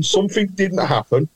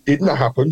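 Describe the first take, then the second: First: Something lifted and leaned on; rising hint on Something; stress on Something. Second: Said in the usual way. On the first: Shown as a demonstration. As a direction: hit the word Something as a teasing clue.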